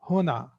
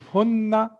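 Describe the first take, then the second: First: The n sound is short and single. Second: The n sound is held long and doubled. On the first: The speaker calls it wrong. "It's not huna" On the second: The speaker calls it right. "Make sure that on noon you are stopping"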